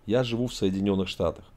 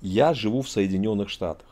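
The two takes are said the same way.

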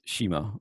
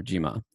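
First: Shima with an initial sh sound; sh reading. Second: Jima with an initial j sound; j reading. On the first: Lecturer giving a phonetic reading, shima with sh. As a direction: say shima, opening on an unvoiced "sh". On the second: Lecturer giving the alternative reading, jima with j. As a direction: say jima, opening on a soft "j" instead of "sh". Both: Shown as a demonstration. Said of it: "is read as shima or jima".

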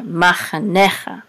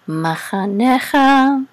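First: Said in the usual way. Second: Slow chant climbing to a high note; chanted word. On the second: Shown as a demonstration. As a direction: sing it out, holding the last syllable.

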